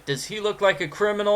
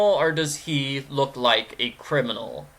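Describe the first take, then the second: First: First option pitched up and quick; higher, quicker question. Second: Second option dropped back down. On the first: Streamer offering viewers the first choice, higher and quicker. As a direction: ask it high and brisk. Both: Acted. Poses the same question two ways.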